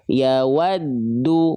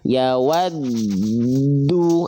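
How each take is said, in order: First: The d is pressed briefly, not prolonged. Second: The d is held for a long time. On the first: The speaker calls it right. "adnya ditekan ya. ... bukan ditahan" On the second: The speaker calls it wrong. "Ah, enggak ya, karena dia bukan nun dan mim"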